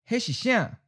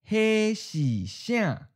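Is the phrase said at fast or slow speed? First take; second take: fast; slow. First: The phrase is said at natural speed. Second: The phrase is said slowly and deliberately. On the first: "One's natural speed" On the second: "and then slow"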